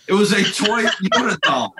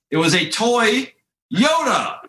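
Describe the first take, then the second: First: Laughing through the punchline. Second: "toy" drawn out slowly, high pause, then "Yoda" sharply higher; dramatic reveal. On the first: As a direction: breaks into a laugh mid-line. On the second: Punchline reveal of the joke. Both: Real, not acted.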